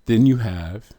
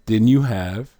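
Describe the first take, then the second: No difference in how they are said.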